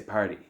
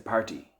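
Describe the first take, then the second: First: It is said in an American accent. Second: It is said in an Irish accent. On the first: "In America, they might say party" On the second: "In Ireland, they'll say party"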